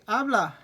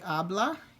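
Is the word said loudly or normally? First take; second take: loudly; normally. First: The word is said more loudly. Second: The word is said at normal loudness. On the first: It is a command to talk. "If I say it a little more loudly" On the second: Someone talks. "el ella form would be habla"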